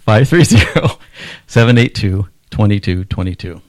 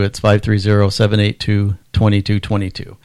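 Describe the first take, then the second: First: It is said slowly and deliberately. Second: It is said at normal, faster speed.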